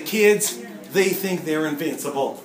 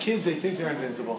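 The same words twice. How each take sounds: First: It is spoken in a Southern American accent. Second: It is spoken in a plain, neutral accent. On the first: "the southern accent" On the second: "without the southern accent, just straight up"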